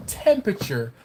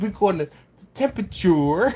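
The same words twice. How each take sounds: First: Said in the usual way. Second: "temperature" ending in a rounded "-toor"; imitating Jimmy's pronunciation. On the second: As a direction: mimic "temperature" as "tempa-toor", high and amused. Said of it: "He said".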